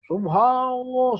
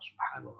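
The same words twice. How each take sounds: First: It is said loudly, at full volume. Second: It is said softly, just barely audible. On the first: It could disturb the neighbours. The speaker calls it wrong. "Kalau kenceng" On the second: Only the speaker himself needs to hear it. The speaker calls it right. "Pelan tapi kedengeran telinga kita sendiri"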